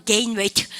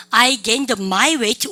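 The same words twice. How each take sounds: First: Said in the usual way. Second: Very slow, word by word, stressing my; wrong version said slowly. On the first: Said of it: "그냥 lose weight". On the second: Shown as a demonstration. Teacher showing students the Konglish mistake, slow and emphatic. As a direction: drag out the wrong phrase so the error stands out. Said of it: "소유격이 있으면 군더더기고 콩글리시".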